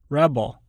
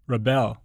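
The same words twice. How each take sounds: First: The stress is on the first syllable. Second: The stress is on the second syllable. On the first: It is used as a noun. "Many nouns and adjectives are stressed on the prefix" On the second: It is used as a verb. "the corresponding verb is stressed on the stem"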